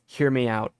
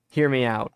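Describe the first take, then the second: No difference in how they are said.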